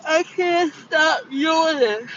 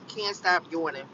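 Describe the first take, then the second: First: Slow, high words swallowed by a real yawn; helpless yawn stretching every word; talking through a yawn. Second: Said in the usual way. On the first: Real, not acted. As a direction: keep yawning as you say it.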